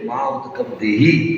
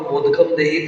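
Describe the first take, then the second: First: The first two words are said separately. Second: The first two words are fused into one. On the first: Don't give me water. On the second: Give me a sweet.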